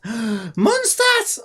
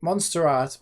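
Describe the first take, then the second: First: Gasp, then a slow, high, loud reveal; excited gasp. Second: Said in the usual way. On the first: Real, not acted. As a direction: discover it with a thrilled gasp. Realizes, gasps excitedly.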